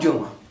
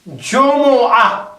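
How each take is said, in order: First: The word is shortened to two syllables. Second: The word is said fully with three syllables. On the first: The speaker calls it wrong. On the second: The speaker calls it right.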